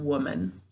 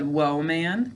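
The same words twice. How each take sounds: First: The word is said with normal, reduced vowels. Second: Each syllable is said with full, clear vowels. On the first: This is how the word is said in speech. "But when we're speaking, we say" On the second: This is how the word is said to spell it. "So to spell this one more time, what do we say?"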